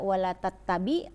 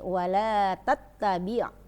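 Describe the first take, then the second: First: It ends on a plain vowel without throat sound. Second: It ends with a throaty ain sound. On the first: The speaker calls it wrong. "enggak dibaca wala tattabi" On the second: The speaker calls it right. "ada ain bukan alif"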